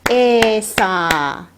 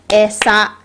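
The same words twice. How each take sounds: First: Both vowels are held long. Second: Both vowels are said short. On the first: "if I want them both to be long" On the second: "being two short syllables"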